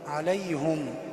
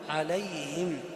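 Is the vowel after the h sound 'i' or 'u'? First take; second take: u; i. First: The h is followed by an 'u' vowel. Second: The h is followed by an 'i' vowel. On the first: The speaker calls it wrong. "وقع في خطأ، وهو ضم الهاء" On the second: The speaker calls it right. "والهاء هنا مكسورة"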